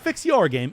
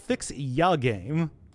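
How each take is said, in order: First: The word 'your' is said in full. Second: The word 'your' is reduced to 'ya'. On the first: The speaker calls it wrong. "It's not fix your game" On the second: The speaker calls it right. "it's fix ya game. Like ya boy"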